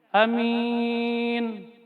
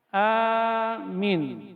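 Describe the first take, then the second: First: The first vowel is short, the second long. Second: The first vowel is long, the second short. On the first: It means safe. "A-nya pendek, min-nya yang panjang" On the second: It means a security guard. "A-nya panjang, minnya pendek"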